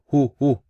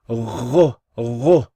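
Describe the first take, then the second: First: It starts with a breathy h sound. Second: It starts with a gargled sound from the throat. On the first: The speaker calls it wrong. "or hu hu" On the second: The speaker calls it right. "No, ghu ghu"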